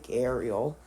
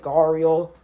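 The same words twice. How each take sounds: First: Gharial with an 'air' first vowel, GAIR-ee-ul; own pronunciation. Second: Gharial with an 'ar' first vowel, GAR-ee-ul; common pronunciation. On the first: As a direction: say gharial starting like 'gair'. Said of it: "I pronounce it gharial". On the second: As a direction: say gharial starting like 'garden'. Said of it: "how most people pronounce it". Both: Shown as a demonstration.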